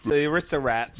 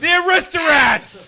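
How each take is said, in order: First: It is said quietly. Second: It is said loudly.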